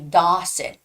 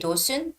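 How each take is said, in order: First: The first vowel is said with an open jaw. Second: The first vowel is said with a closed jaw. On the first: The speaker calls it right. "you have to open up your jaw. So it's got to be Dawson" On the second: The speaker calls it wrong. "don't say Dawson"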